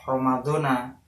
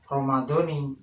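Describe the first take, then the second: First: The word ends with an 'a' vowel. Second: The word ends with an 'i' vowel. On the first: The speaker calls it wrong. "bukan Ramadona" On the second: The speaker calls it right. "alamat jarnya yaitu pakai kasroh"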